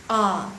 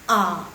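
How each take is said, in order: First: The pitch goes down low. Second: The same.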